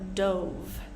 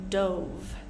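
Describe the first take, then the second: First: It is pronounced as the past of 'dive'. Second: The same.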